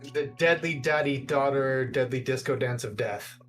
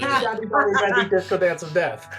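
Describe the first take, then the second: First: It is said at a normal speed. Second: It is said quickly.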